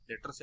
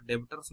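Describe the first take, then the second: First: डेटर्स said with the b silent, as "detters"; teacher shows the right way: डेटर्स with no b sound. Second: डेबिटर्स with the b sounded, "de-bi-ters"; the wrong way, every letter read out: डेबिटर्स; spelling pronunciation. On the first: Teacher showing students the correct debtors, b kept silent. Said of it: "बी silent रहेगा यहाँ पे". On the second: Teacher warning students off saying डेबिटर्स with the b. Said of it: "डेबिटर्स नहीं पढ़ना है इसको". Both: Shown as a demonstration.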